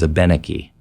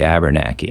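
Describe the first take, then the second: First: It is said with a French inflection. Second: It is said with an added R sound. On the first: "the French inflection, which is what I tend to use" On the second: "if you're really, really, really from Vermont or New Hampshire"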